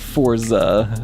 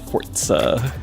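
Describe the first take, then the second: First: The 'z' is smooth, with no stop before it. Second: A 't'-like stop comes before the 'z'. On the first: The speaker calls it wrong. "so it's not a Forza" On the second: The speaker calls it right. "it has the t... You have to stop the sound"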